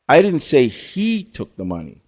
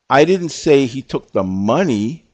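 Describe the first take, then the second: First: The word he is stressed. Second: The word money is stressed. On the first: Someone else may have taken the money. "So we had two people pick the word he" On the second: Maybe something else was taken, not the money. "I put the emphasis on the word money"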